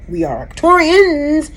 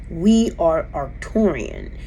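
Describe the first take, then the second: First: "Arcturians" with a final s, said much higher; the wrong version, plural "Arcturians". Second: "Arcturian" with no final s, slow and quieter; the right one, singular "Arcturian", said slowly; singular form. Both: Shown as a demonstration. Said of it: "Not in plural".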